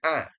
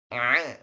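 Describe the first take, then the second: First: The vowel sounds thin and light. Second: The vowel sounds thick and heavy. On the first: The speaker calls it wrong. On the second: The speaker calls it right.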